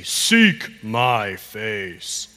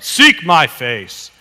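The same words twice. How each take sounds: First: Very slow, low, each word set apart; slow modelling. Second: Louder, slow, firmly projected line; firm modelling. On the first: Pastor showing a child the line, very slowly. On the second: Pastor cheering on a child with the line, firm and slow. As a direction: say it out slowly and strongly. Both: Shown as a demonstration.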